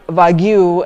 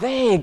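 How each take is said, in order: First: The word is said with two syllables, like 'wagyu'. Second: The word is said with one syllable, like 'vague'. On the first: The speaker calls it wrong. "what you said is rather wagyu" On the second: The speaker calls it right. "so that's how it's pronounced"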